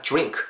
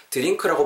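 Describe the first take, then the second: First: "drink" starting with a J sound, "jrink"; "drink" as one syllable, opening like "jr". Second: "drink" as "deu-ring-keu", D and R separate; "drink" in careful Korean-style syllables; plain D-R drink. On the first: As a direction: blend the D and R of "drink" into "ju". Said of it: "디아 사운드는 주 정도로 발음해". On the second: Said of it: "발음하셔도 좋지만". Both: Shown as a demonstration.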